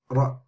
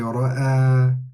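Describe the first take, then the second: First: The word ends abruptly without the final vowel. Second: The final vowel is held for two counts. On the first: The speaker calls it wrong. "we don't say ra'a, ra" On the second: The speaker calls it right. "we say ra'a"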